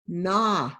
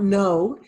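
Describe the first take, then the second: First: The vowel is short, like in 'nonsense'. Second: The vowel is long, like the word 'no'. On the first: The speaker calls it right. "keep the long the short sound" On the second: The speaker calls it wrong. "This is not no"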